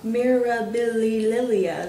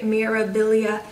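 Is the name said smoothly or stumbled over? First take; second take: stumbled; smoothly. First: The name is stumbled over with extra syllables. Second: The name is said smoothly with normal syllables. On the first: The speaker calls it wrong. "I'm crazy when it comes to words like that" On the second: The speaker calls it right. "but it's Mirabilia, right?"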